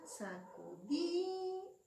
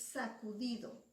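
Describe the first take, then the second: First: "sacudido" slowly, DI held long and raised; stress on DI. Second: Said in the usual way. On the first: Shown as a demonstration. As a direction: stretch the DI in "sacudido" on a higher pitch. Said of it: "Sílaba tónica". ("sacudido" alargando mucho y subiendo la sílaba DI) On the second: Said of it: "La última palabra de este verso".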